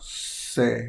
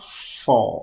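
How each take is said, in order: First: The vowel is raised, close to e. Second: The vowel is a fully open a. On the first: "Kalau imalah" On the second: "Kalau fathah"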